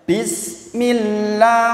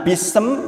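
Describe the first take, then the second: First: The s runs straight into m, no vowel. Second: An extra vowel is heard between s and m. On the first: The speaker calls it right. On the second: The speaker calls it wrong.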